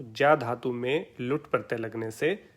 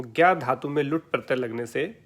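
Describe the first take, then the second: First: ज्या said with j, as "jya"; pure pronunciation. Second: Said in the usual way. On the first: Shown as a demonstration. Teacher deriving the Sanskrit word, ज्या as "jya". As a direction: open ज्या on a j sound, not g. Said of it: "शुद्ध जो pronunciation". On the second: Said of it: "प्रचलित शब्द का प्रयोग कर लेता हूँ".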